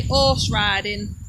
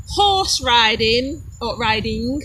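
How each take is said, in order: First: Horse riding as "'orse ridin'"; slow Derbyshire 'orse ridin'; Derbyshire dropped H. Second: Horse riding slow and careful, H sounded; proper, measured horse riding; Queen's English. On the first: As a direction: drop the H of horse and the final G of riding. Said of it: "we say horse riding". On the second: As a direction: say horse riding with a clear H and full ending. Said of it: "got to pronounce it right". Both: Shown as a demonstration.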